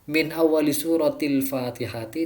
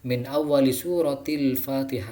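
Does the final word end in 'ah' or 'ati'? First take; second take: ati; ah. First: The last word ends with an added 'ti' syllable. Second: The last word ends with a short 'ah'. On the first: The speaker calls it right. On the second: The speaker calls it wrong.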